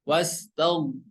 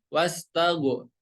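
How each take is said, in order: First: The final consonant is thick and held without bounce. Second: The final consonant bounces with an added vowel. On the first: The speaker calls it right. "cara membacanya harus tebal ya" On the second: The speaker calls it wrong. "bukan wastago wastago. Tidak boleh dipantulkan"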